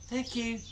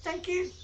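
First: Soft, high, hushed thanks; whispering. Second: Very high, soft little rat voice; squeaky rat voice. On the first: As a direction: whisper it tenderly to her pet. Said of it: "she whispered to him". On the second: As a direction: voice a tiny grateful rat. Rat's reply voiced. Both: Acted.

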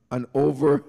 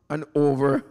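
Both takes have the same delivery.

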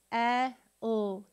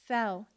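First: S-E-L as loud held sss, short eh, ull; each sound of S-E-L alone, not letter names. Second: Said in the usual way. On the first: Shown as a demonstration. Teacher sounding out with the class, S-E-L sound by sound. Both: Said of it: "let's sound it out together".

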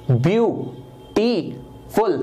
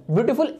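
First: beautiful very slowly in three separate sounds; syllable by syllable. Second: Said in the usual way. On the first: Shown as a demonstration. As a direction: split beautiful into view, टी, फुल with pauses. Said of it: "तीन आवाजें निकल रही हैं". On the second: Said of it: "एक बार में नहीं बोला जाता".

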